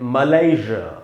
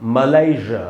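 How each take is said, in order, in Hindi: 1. American उच्चारण, बीच में 'zh' की आवाज़ के साथ। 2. अमेरिकन उच्चारण, बीच में 'zh' की आवाज़ के साथ।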